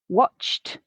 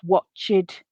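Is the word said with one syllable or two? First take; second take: one; two. First: The ending is a single t sound, no extra syllable. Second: The ending adds an extra syllable with a vowel. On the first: The speaker calls it right. "pronounced t" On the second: The speaker calls it wrong. "adds a syllable and a vowel sound"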